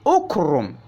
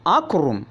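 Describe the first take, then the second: First: The word begins with a u vowel. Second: The word begins with an a vowel. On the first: The speaker calls it right. "read your alif al-wasl with dhamma" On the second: The speaker calls it wrong. "not akrum"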